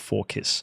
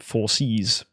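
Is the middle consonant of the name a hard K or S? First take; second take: hard K; S. First: The name is said with a K sound. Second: The name is said with an S sound. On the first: "I go with Forkis" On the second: "some of you may pronounce it four C's"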